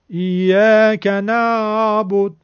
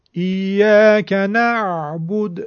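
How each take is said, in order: First: "نعبد" slow and louder with the ayn almost dropped; too-weak ayn. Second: "ایاک نعبد" slow and louder, ayn moderate, neither slack nor harsh; correct ayn. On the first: Teacher showing students the wrong slack ayn. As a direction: say "ایاک نعبد" swallowing the ayn. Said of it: "که اصلاً عین نگفتیم انگار". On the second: Teacher giving students the correct balanced ayn. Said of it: "اینطور تلفظ کنیم". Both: Shown as a demonstration.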